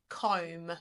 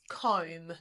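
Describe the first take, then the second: No difference in how they are said.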